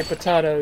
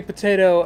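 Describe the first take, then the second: First: "potato" said as po-TAH-to; broad AH in the middle of "potato"; potahto pronunciation. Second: Said in the usual way. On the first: Shown as a demonstration. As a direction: rhyme the middle of "potato" with spa. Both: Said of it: "the song goes".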